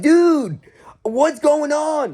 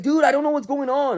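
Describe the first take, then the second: First: High, loud, drawn-out plea; exasperated disbelief. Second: High-pitched exasperated insistence; baffled protest. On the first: Worker reacts to kid freaking out, high exasperated plea. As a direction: cry out in baffled protest, stretching the words. Baffled reply to kid's outburst. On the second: Worker insists to angry kid he's lost, baffled protest. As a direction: plead ignorance in a raised voice, not shouting. Repeats his baffled reply. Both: Retold or imitated.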